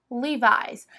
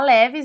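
First: It is said with an American English pronunciation. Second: It is said with a Brazilian Portuguese pronunciation. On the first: The speaker calls it right. "lá fora é Levi's" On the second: The speaker calls it wrong. "A gente fala Levi's, né, aqui"

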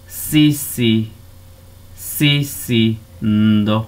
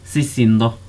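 First: It is said slowly, split into separate syllables. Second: It is said smoothly, with syllables joined together. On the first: "decimos sí, ndo" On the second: "para decirlo normal, a una velocidad normal"

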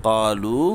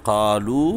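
No difference in how they are said.

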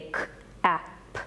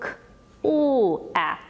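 First: The word is sounded out without the L sound. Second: The word is sounded out with the L sound. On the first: The child cannot hear every sound in the word. The speaker calls it wrong. "When we see a child is not able to hear that L sound, they say" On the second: Every sound in the word is heard. The speaker calls it right.

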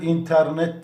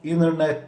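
First: The t after the n is clearly pronounced. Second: The t after the n is dropped. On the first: The speaker calls it wrong. "internet diye okumuyoruz" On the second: The speaker calls it right. "Internet diye okuyoruz. T'yi okumuyoruz"

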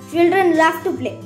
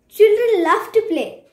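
First: It is said in an angry tone. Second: It is said in an excited tone.

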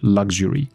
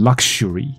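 First: The x is said with a g sound. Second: The x is said with a k sound. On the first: The speaker calls it right. "其实它的发音往往是A B C D 那个字母G 的发音" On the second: The speaker calls it wrong. "你不用把这个字念成luxury"

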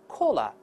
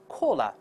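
Both takes have the same delivery.

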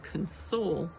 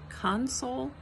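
First: The stress is on the second syllable. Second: The stress is on the first syllable. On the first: It is a verb: to comfort someone. "emphasized on the second syllable, is the verb" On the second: It is a noun: a cabinet or control panel. "Emphasized on the first syllable is the noun"

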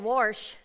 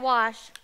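First: It is said with an r, St. Louis style. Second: It is said without an r sound.

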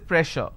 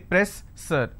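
First: The double S is said as a hushing SH. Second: The double S is said as a hissing S. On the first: The speaker calls it right. "here double S will become sh sound" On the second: The speaker calls it wrong. "I can't say press sir"

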